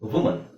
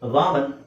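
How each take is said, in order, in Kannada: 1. ಮೊದಲ ಸ್ವರ ಸಣ್ಣ 'u' ಧ್ವನಿ. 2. ಮೊದಲ ಸ್ವರ ತೆರೆದ 'ah' ಧ್ವನಿ.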